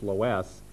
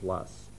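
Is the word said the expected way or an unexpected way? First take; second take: expected; unexpected. First: The word is said the way spelling suggests. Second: The word is said differently from its spelling. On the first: The speaker calls it wrong. "the tendency would be to pronounce that as loess" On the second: The speaker calls it right. "the correct pronunciation is loess"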